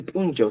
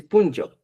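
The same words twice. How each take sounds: First: "punchau" at usual pitch, falling; rejected pronunciation. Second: "punchau" a little lifted, then falling; corrected pronunciation. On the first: Evaluator correcting the candidate, "punchau" cited without lift. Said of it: "No se dice". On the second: Evaluator giving the accepted form, "punchau" lifted slightly. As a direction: offer "punchau" as the correction, more prominent. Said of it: "se dice". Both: Shown as a demonstration.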